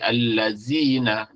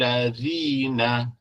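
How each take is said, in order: First: The middle consonant is a plain 'z' sound. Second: The middle consonant is a soft 'th' sound. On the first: The speaker calls it wrong. "dengan zai, batal solat dia" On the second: The speaker calls it right. "zal mesti keluar dari gigi"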